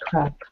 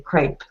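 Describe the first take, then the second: First: The word is said closer to French. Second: The word is said the American English way. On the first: "I try to pronounce closer to French pronunciation" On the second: "in American English, you'll hear people say crepe"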